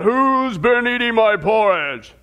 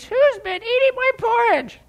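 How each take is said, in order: First: A hint of a big Papa Bear roaring. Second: High squeaky little bear voice; squeaky Baby Bear. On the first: Pastor telling the story, lightly voiced roaring papa bear. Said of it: "And so he roars out". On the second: Pastor telling kids the story, squeaky baby bear voice. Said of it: "And so he squeaks". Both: A narrator's reading.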